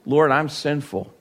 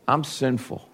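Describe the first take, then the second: First: Said in the usual way. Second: Much softer, fading repeat; softer confession. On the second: Retold or imitated. Peter confessing again to the Lord, much softer. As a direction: let the repeat fall away softly. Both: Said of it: "he confessed".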